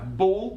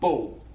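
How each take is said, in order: First: The final L is a full dark L. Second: The final L sounds like a w.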